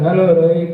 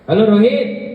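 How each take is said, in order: First: The greeting is said in a plain, flat way. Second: The greeting is said with lively excitement. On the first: It is just a routine check-in. The speaker calls it wrong. "इन्हें simple में बात करो" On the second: Something new must be going on. The speaker calls it right. "आपकी बातों में excitement होना चाहिए"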